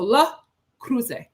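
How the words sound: The name is said with a French pronunciation. "that is the pronunciation for you"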